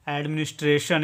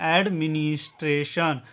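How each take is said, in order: First: Said in the usual way. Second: administration drawn out as ad, mi-nis, tre, shan; syllable by syllable. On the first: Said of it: "इसका उच्चारण होगा". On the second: Shown as a demonstration. Teacher showing learners how to read the word, administration split into its parts. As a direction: say administration part by part. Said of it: "इसको पढ़ेंगे".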